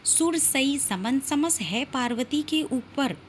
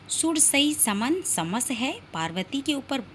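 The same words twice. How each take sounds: First: It is read in one continuous flow. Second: It is broken with a pause after है.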